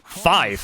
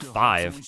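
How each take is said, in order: First: The word ends with an f sound. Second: The word ends with a v sound. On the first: It is the military phonetic code form. "the bastards were pronouncing it five" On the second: It is the ordinary everyday form. "instead of five"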